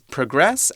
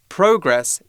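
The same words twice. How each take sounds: First: The stress is on the second syllable. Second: The stress is on the first syllable. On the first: It is the verb, meaning to move forward. "verb is progress" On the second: It is the noun. "progress is the noun"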